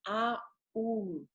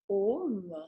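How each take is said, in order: First: It begins with an open 'ah' vowel. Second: It begins with a rounded 'oh' vowel. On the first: "on ouvre" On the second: "On fait home"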